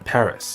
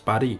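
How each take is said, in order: First: The name is said with English pronunciation. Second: The name is said with Korean pronunciation. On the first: "in English, you refer to the capital of France as Paris" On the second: "In Korean and French, however, you refer to the capital of France as Paris or Paris"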